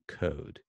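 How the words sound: The vowel has only slight lip rounding. "There's U K code"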